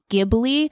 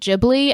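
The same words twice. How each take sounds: First: The word has an Italian-style pronunciation. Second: The word has a Japanese-style pronunciation. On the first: This is the original name of the plane. "the plane is technically pronounced Ghibli" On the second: This is how the studio's staff say the name. "being Japanese, pronounces it Ghibli"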